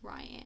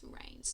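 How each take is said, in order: First: The name is said like Ryan, two syllables. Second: The name is said like Rain, one syllable. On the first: The speaker calls it wrong. "I was pronouncing him as Ryan" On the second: The speaker calls it right. "Apparently it's Rain"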